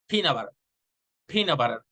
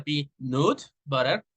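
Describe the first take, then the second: First: "peanut butter" with the middle vowel weakened to "uh"; reduced schwa vowel. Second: "peanut butter" with a clear full "nut"; full vowel. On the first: Teacher showing vowel reduction to learners, schwa in "peanut". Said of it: "replacing the vowel sound for a schwa". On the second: Teacher showing the unreduced form, full vowel in "peanut". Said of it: "Instead of the peanut butter". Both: Shown as a demonstration.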